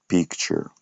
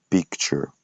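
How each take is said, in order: No difference in how they are said.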